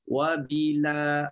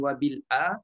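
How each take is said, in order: First: The l runs straight into a, no glottal stop. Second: A clear glottal stop separates l from a. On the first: The hamza's vowel has moved onto the consonant before it. "wabila bukan lagi bunyi wabil a" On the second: The hamza is kept and pronounced in full. "Bagi Hafs kita baca jelas bunyi hamzah"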